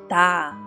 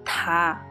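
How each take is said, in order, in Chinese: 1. 这个辅音听起来像浊音的 d。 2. 这个辅音听起来像清音的 t。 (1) "第2 个听上去是达" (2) "第1 个听上去呢是塔"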